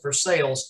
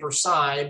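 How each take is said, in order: First: The name is said the local Ohio way. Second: The name is said the French way. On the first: This is how the people there say it. The speaker calls it right. "I think they pronounce it Versailles" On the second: This is the speaker's habitual way of saying it. The speaker calls it wrong. "I always want to say Versailles"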